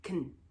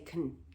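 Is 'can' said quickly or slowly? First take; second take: quickly; quickly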